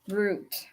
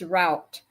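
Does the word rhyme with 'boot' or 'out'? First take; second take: boot; out. First: The word rhymes with 'boot'. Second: The word rhymes with 'out'. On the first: The speaker calls it wrong. "now I would say root" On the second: The speaker calls it right. "That's not, it's route"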